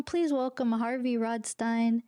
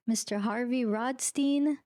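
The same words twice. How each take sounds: First: Rodstein ending to rhyme with "fine"; Rodstein as ROD-stine. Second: Rodstein ending like "steen"; Rodstein as ROD-steen. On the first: Host redoing the guest's welcome, Rodstein said ROD-stine. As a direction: say Rodstein with a long i in the last syllable. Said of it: "my father always said Stein". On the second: Host welcoming the guest on the podcast, Rodstein said ROD-steen. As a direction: say Rodstein with a long ee in the last syllable. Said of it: "is it Rodstein or Rodstein". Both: Real, not acted.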